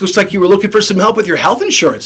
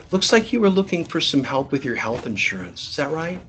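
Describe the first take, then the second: First: Fast, breezy sales pitch; brisk and casual. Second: Much softer, careful pitch; soft and gentle. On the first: Rep pitching a casual caller, quick and breezy. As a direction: rattle it off like a chummy rep. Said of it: "You have to adapt". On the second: Rep pitching a timid Jane, soft and gentle. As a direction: say it gently to a shy caller. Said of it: "No, it's". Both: Shown as a demonstration.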